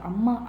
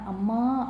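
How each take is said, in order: First: The word is said at normal length. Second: The word is drawn out, prolonged.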